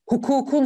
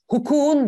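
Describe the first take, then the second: First: The k before the suffix stays hard. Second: The k before the suffix is softened. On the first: The speaker calls it right. "şeklinde yazmak zorundayım" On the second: The speaker calls it wrong.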